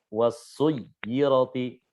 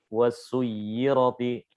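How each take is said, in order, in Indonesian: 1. Huruf y yang ganda ditekan kuat. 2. Huruf y yang ganda ditekan ringan. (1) "ini ketika naber, ketika kaidah-kaidah yang menekan huruf, itu kuat" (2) "lebih lebih apa? Slow, lebih lebih nggak terlalu kuat"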